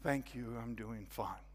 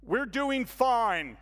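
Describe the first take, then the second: First: Softer, lower, resigned; defeated quiet reply. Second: Slow, stiff, rehearsed delivery; reading a cue card. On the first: Newcomer masking his struggles to the hostess, quietly defeated. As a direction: give in and say it small. I find myself saying. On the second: Churchgoer answering the newcomer as if from a cue card. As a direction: recite it like a memorized line. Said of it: "like he's reading from a cue card". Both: Retold or imitated.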